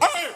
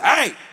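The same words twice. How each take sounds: First: A desperate yell with the voice cracking. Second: A firm yell with a steady voice.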